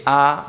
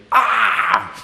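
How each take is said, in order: First: Said in the usual way. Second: High, crying demonic "ah"; demonic wail. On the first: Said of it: "ese "ah" mío no es de un endemoniado". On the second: Shown as a demonstration. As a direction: wail it like one possessed. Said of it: "de un endemoniado es diferente".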